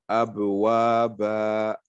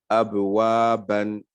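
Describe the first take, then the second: First: The word ends without the final n sound. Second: The word ends with an added n sound. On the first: The pausal rule of recitation is followed. "Si on veut respecter les règles du tajwid" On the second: The tanwin ending is brought out for practice. "pouvoir lire la lettre avec tanwin"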